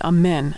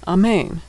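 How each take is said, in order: First: The second vowel sounds like 'eh' in men. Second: The second vowel sounds like 'ay' in main. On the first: "Israelis would pronounce that amen, as we do in English" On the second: "that's the way I hear it in America"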